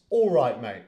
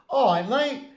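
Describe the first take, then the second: First: Said in the usual way. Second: "All right, mate" squashed into vowels, l and t's dropped; "All right, mate" higher and blurred, barely separate words; slurred British greeting. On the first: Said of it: "it means". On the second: Shown as a demonstration. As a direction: run "All right, mate" together as a loose noise. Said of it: "hear a British person saying".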